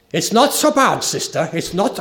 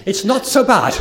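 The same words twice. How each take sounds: First: Imitating a German mission leader, raised and louder; a lightly attempted German accent, clearly a quote. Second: Put-on retrying the German accent through a laugh; a giggly second go at a German accent, higher and louder. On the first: German mission leader reassuring young lady, German accent. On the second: German leader answering the sister, laughing German accent. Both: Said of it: "I can't do the accent".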